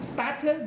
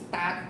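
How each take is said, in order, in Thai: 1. มีเสียงสระเพิ่มหลังเสียง t 2. คำนี้จบที่เสียง t ตัวสุดท้ายชัดเจน (1) "starter, no" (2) "only, start"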